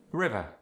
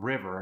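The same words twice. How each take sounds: First: South African "river" ending in uh; South African accent. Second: Said in the usual way. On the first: Shown as a demonstration. Teaching the dropped R, South African "river". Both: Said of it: "there's the dropped R".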